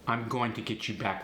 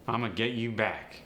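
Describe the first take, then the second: First: 'Going to' is said in full. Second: 'Going to' is reduced to 'gonna'. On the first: "Instead of saying I'm going to" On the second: "we got a contraction. It's much easier to say"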